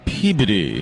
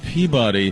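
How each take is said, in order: First: The name is said the local way. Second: The name is said the outsider way. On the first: The speaker sounds like a local. The speaker calls it right. "Boy, it's Peabody" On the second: The speaker sounds like an outsider. The speaker calls it wrong. "If you say Peabody, people aren't going to think you're local"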